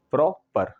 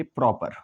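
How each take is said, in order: First: "proper" split in two beats, प्रॉ-पर; two separate syllables. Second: Said in the usual way. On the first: Shown as a demonstration. Teacher showing two syllables, "proper" said in two distinct parts. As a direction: say "proper" with a short break before पर. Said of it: "आप दो बार बोलेंगे". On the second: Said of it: "तो proper को बोलते समय".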